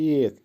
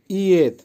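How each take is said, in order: First: Said in the usual way. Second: ইএত repeated higher and louder, letter by letter; emphatic repeat. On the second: Shown as a demonstration. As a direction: hammer the ending ইএত for the class. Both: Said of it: "আবারও বলছি".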